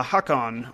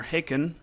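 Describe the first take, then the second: First: Hakon with open "hah" and full "kon"; pronounced HAH-kon. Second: Haken with "hay" first and weak ending; pronounced HAY-ken. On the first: Player choosing how to say a name, Hakon as "hah-kon". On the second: Player offering another reading, Haken as "hay-ken". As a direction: say Haken like "bacon" with an H. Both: Shown as a demonstration. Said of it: "Hakon sounds better".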